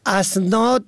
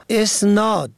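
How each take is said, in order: First: "اسناد" pronounced asnād; opening A vowel. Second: "اسناد" pronounced esnād; opening E vowel. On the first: Radio teacher explains the plural of sanad, opening A vowel. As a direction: begin "اسناد" on a short a: asnād. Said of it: "اسناد به فتح الف". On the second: Radio teacher explains the word for attributing, opening E vowel. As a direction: begin "اسناد" on a short e: esnād. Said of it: "اسناد به کسر الف". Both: Shown as a demonstration.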